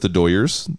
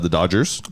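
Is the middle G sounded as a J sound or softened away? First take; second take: softened away; J sound. First: The middle G sound is softened to a glide. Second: The middle G is a full J sound.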